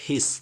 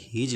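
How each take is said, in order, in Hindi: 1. यह शब्द s ध्वनि से खत्म होता है। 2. यह शब्द z ध्वनि से खत्म होता है। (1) "तो इसको पढ़ेगा हिस" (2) "हिस नहीं लिखा है, ये हिज लिखा है"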